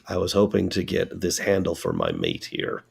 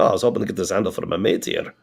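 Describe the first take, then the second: First: It is spoken in the speaker's ordinary accent. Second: It is spoken in a put-on character accent. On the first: The speaker is saying it as themselves. "Say that without the accent" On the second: A character in the story is speaking. "And which I then respond in character"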